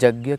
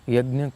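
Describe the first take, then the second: First: It is said with a Bengali accent. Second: It is said with standard Sanskrit pronunciation.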